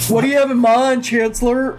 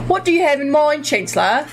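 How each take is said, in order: First: It is said in the speaker's plain accent. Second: It is said in an Australian accent. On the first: The speaker calls it wrong. "No, no, no, wait" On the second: The speaker calls it right. "I have to have an Australian accent"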